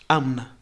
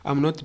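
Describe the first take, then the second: First: The words blend quickly into one reduced sound. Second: Both words are said fully and separately. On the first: "becomes amna. Quickly, just quickly" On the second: "I'm not becomes amna"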